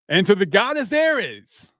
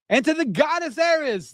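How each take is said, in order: First: It is said in a deeper voice. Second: It is said in a normal-pitched voice.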